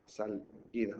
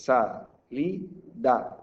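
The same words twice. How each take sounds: First: Salida split as SAL, pause, IDA; sal... ida, lower and softer; wrongly split word. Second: SA, LI, DA slowly with gaps; syllable by syllable. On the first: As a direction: break salida after the L. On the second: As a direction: break salida into sa-li-da. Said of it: "he partido una sílaba". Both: Shown as a demonstration.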